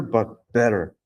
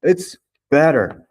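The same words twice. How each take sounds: First: Said in the usual way. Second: Better stretched slowly, higher and louder; stress on better. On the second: Shown as a demonstration. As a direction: lean on better, it's the right form. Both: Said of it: "not gooder".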